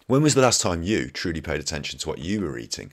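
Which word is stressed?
you. The word you is stressed.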